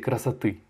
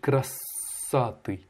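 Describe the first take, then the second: First: The stress is on the last syllable. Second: The stress is not on the last syllable. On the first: The speaker calls it right. "L'accentuation est sur la dernière syllabe" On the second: The speaker calls it wrong. "Tu as mal prononcé"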